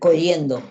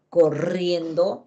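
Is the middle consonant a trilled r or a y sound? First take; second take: y sound; trilled r. First: The middle sound is a y, untrilled. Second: The middle sound is a trilled r. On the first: The speaker calls it wrong. "coyendo, su lengua no vibra" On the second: The speaker calls it right. "corriendo, mi lengua vibra"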